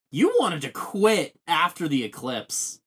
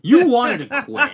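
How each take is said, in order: First: Said in the usual way. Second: Higher, louder, amused insistence; emphatic repeat. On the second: Real, not acted. Telling a co-host they nearly quit, loud amused emphasis.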